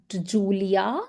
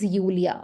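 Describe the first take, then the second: First: The name begins with an English J sound. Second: The name begins with a Y sound. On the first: The speaker calls it wrong. "this is not Julia" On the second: The speaker calls it right. "J has to be always pronounced like Y"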